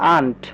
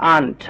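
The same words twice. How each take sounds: First: The vowel is an open 'ah' sound. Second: The same.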